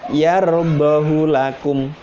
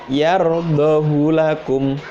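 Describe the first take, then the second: Both takes have the same delivery.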